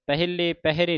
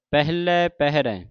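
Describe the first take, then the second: First: ਪਹਿਲੇ ਪਹਿਰੇ ending in close 'ee/ay'; wrong closed endings. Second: ਪਹਿਲੇ ਪਹਿਰੇ ending in open 'eh'; dulavan endings. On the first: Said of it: "ਨਹੀਂ ਪੜ੍ਹਨਾ". (ਪਹਿਲੇ ਪਹਿਰੇ ਇੱਕ ਲਾਂ ਨਾਲ) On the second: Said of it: "ਦਲਾਵਾਂ ਲੱਗੀਆਂ". (ਪਹਿਲੇ ਪਹਿਰੇ ਦਲਾਵਾਂ ਨਾਲ) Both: Shown as a demonstration.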